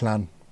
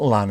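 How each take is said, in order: First: It begins with a hissing, breathy L sound. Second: It begins with a plain L sound. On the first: The speaker calls it right. "it's Llan" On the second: The speaker calls it wrong. "It's not Lan"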